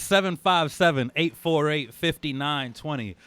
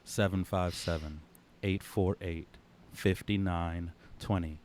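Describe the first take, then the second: First: The number is read at normal speed. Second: The number is read very slowly.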